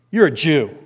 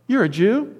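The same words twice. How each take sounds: First: You're a Jew, said flat and falling; flat statement. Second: You're a Jew? with a high rise on Jew; surprised question. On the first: Samaritan woman to Jesus at the well, flatly stating. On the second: Samaritan woman to Jesus, asking in surprise. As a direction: ask "You're a Jew?" in higher, rising disbelief. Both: Shown as a demonstration. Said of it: "I don't know how she said it".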